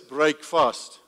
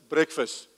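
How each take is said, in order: First: It is said as two separate words. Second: It is said as one blended word. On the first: The word means breaking a fast. "You spell it like this" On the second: This is how the word is normally said. "we say it like this"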